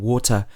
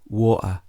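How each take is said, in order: First: The middle T is pronounced as a clear T. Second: The middle T is a glottal stop. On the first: "instead of saying" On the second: "use a stop sound in the middle of the word"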